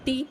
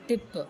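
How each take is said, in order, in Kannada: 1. ಸ್ವರ ದೀರ್ಘ ಇದೆ, 'ee' ತರಹ. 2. ಸ್ವರ ಹ್ರಸ್ವ ಇದೆ, 'i' ತರಹ. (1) "ಟೀಪ್ ಅಲ್ಲ"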